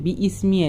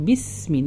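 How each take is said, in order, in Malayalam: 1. ഒരു ഗ്ലോട്ടൽ ബ്രേക്ക് bi-യെ ismi-യിൽ നിന്ന് വേർതിരിക്കുന്നു. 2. Ba നേരെ s ശബ്ദത്തിലേക്ക് ചേരുന്നു. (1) "ബി ഇസ്മി അല്ല പറയുക" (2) "നേരെ ബാന്ത് സീനിലേക്കാണ് പോട്ടത്"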